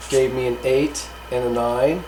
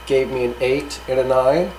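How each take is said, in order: Both takes have the same delivery.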